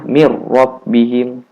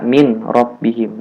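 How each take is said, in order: First: The n is merged fully into the r. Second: The n is pronounced clearly before the r. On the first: The speaker calls it right. "Cara bacanya mir rabbihim" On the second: The speaker calls it wrong. "jangan baca min rabbihim. Nah, itu salah"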